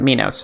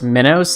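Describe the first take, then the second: First: It is said like the Greek name Minos. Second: It is said like the word 'minnows'. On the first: "Greek pronunciation or something like that" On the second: "like fish?"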